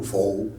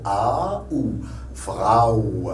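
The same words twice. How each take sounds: First: "Frau" read as FRO, one O sound; French reading. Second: Slow "A ou Frau", A gliding into OU; German AU diphthong. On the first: Teacher showing how French would read it, O sound. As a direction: say "Frau" with AU as a plain O. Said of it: "Si c'était en français". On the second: Teacher correcting the French reading, slow German diphthong. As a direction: draw out "Frau" as FRA-OU. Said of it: "Mais en allemand". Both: Shown as a demonstration.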